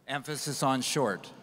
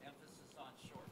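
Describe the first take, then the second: First: The word "short" leaned on with a falling tune; joking, hit "short" hard as a playful warning; stress on short. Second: Said in the usual way. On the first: Shown as a demonstration. Joking to the moderator about his short talk, stressing "short".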